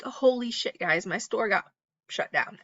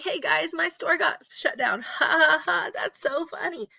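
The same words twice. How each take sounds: First: Said in the usual way. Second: High, giggly mock YouTuber voice; chirpy fake-cheerful influencer laughing it off; bubbly vlogger mock, higher and laughing. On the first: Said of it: "I'd be like". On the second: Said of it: "Let me know what YouTuber I'm talking about".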